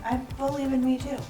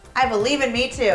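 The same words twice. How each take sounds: First: The voice rises at the end like a question. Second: The voice falls at the end like a statement. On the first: The speaker sounds unsure of it. The speaker calls it wrong. "You said that with a question mark in your voice" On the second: The speaker sounds sure of it. The speaker calls it right. "there we go. Third time's a charm"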